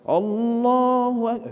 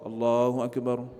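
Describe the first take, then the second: First: It is said loudly and drawn out. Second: It is said softly and relaxed.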